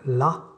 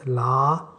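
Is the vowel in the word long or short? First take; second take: short; long. First: The vowel is short and clipped. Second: The vowel is drawn out long. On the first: It means certainly. "ça veut dire certainement" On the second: It means no, a negation. "si vous le prolongez"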